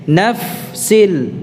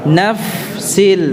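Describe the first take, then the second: No difference in how they are said.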